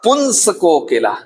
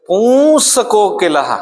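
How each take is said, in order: First: A nasal consonant is sounded before s. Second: The vowel before s is nasalized. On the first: "अनुस्वार वाला" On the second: "अनुनासिक वाला कैसे बोलेंगे?"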